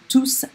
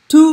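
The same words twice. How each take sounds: First: The final S sound is pronounced. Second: The final S sound is silent. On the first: The word is a pronoun after the verb. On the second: The word is an adjective before the subject.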